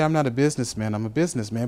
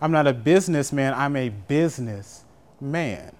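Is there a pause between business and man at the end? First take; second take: no; yes. First: The final businessman is said as one word. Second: A pause splits business and man at the end.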